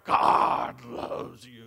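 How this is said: It is said in a deep, fiery voice.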